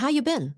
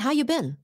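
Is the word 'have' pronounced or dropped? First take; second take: dropped; dropped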